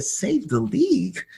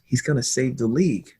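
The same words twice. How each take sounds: First: High disbelieving repeat of league; incredulous echo. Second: Said in the usual way. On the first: Retold or imitated. Agent echoing the father's claim in disbelief. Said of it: "Don't we have Michael Jordan?". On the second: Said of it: "He says".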